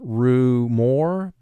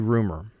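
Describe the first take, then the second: First: The second syllable is exaggerated as a full 'more'. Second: The second syllable is reduced and unstressed. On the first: It helps with spelling the word. "for spelling, we pronounce the word ru more" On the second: It is the everyday way of saying it. "in conversation, we say rumor"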